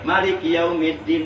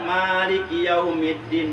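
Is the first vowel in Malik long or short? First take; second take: short; long. First: The first vowel of Malik is kept short. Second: The first vowel of Malik is held long. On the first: "Atau boleh pendek" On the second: "mimna boleh panjang"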